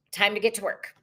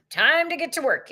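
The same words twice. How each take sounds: First: Said in the usual way. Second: Lifted, higher "Time to get to work"; higher excited repeat. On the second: Shown as a demonstration. Rallying viewers, higher and brighter on "Time".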